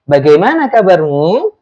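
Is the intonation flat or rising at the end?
rising. The pitch rises toward the end. The speaker calls it right. "Pasti ada nada naiknya"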